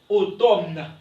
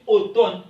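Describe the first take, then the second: First: The M sound is pronounced. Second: The M sound is silent. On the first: The speaker calls it wrong. "On ne dit pas, ok, automne" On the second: The speaker calls it right. "On dit automne. M ici dans automne, M ne se prononce pas"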